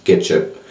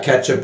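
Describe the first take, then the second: First: French-accented ketchup. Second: Said in the usual way. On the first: Shown as a demonstration. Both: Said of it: "Just ketchup with the French accent".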